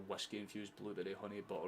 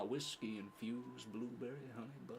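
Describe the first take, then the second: First: It is read in the speaker's ordinary accent. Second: It is read in an American Southern accent.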